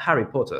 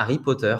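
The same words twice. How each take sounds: First: "Harry Potter" with breathed H and English r; English pronunciation. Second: "Harry Potter" without H, French r at the end; French pronunciation. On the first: Teacher showing what it is not, English pronunciation. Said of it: "c'est pas Harry Potter". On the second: Teacher correcting to French style, H dropped. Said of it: "avec un beau R à la fin". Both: Shown as a demonstration.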